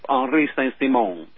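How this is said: The name is said with a French pronunciation. "it's pronounced Henri Saint-Simon in French"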